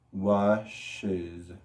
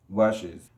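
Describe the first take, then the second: First: "Washes" stretched into two parts, wash-ez; low, drawn-out "Washes", syllable by syllable; extra syllable. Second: Said in the usual way. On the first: Shown as a demonstration. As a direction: slowly separate the added "ez" in "Washes". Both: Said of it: "igual agregamos una sílaba extra".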